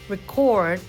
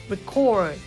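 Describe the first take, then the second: First: The stress is on the second syllable. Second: The stress is on the second syllable.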